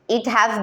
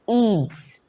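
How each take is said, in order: First: Two separate words are said in full. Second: The words merge into one short syllable.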